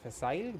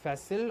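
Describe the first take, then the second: First: It is said in a British pronunciation. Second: It is said in a non-British pronunciation.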